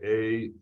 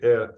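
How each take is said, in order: First: The vowel glides like 'ay'. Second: The vowel is a plain, steady 'eh'. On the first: This is how some in America say it. "Maybe some of you in America say it a" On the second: This is how it is said in Israel today. "We say it now today, eh"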